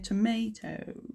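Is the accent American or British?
American. It is said in an American accent. "Americans would say tomato"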